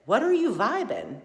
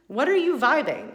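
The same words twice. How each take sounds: First: A challenging question put to herself; pointed self-question. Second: Higher and louder, pressing the question; emphatic repeat. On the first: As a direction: ask yourself bluntly, a bit raised. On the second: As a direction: drive it home the second time. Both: Retold or imitated. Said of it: "You're doggone right I said".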